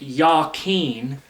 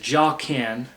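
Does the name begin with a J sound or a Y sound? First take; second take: Y sound; J sound. First: The name begins with a Y sound. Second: The name begins with a J sound. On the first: The speaker calls it right. "properly pronounced" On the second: The speaker calls it wrong. "many English speakers mispronounce it as"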